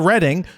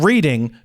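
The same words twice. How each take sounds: First: The first vowel sounds like in 'red'. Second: The first vowel sounds like in 'reed'. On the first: The speaker calls it right. "It's somehow Reading" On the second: The speaker calls it wrong. "Not Reading, P A, even though it's spelled R E A D I N G"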